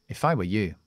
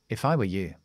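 The two takes are said the same way.

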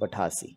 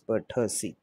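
First: An a sound follows the th. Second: No extra a sound follows the th. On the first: The speaker calls it wrong. "not pathasi" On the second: The speaker calls it right. "It is pathasi"

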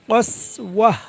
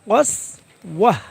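The two takes are said the same way.

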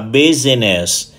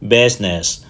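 First: The word is said with three syllables. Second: The word is said with two syllables. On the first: The speaker calls it wrong. "thường bị phát âm là" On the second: The speaker calls it right. "nó chỉ có hai âm tiết thôi"

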